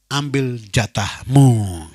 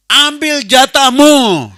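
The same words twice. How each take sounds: First: Slowly drawn out "Ambil jatahmu"; slow emphatic command. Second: "Ambil jatahmu" slow, much louder and higher; shouted proclamation. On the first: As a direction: lay down each word with weight. (ucapkan "Ambil jatahmu" pelan dan tegas) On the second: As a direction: cry out the charge to the whole church. (serukan "Ambil jatahmu" keras, tinggi dan pelan) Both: Real, not acted.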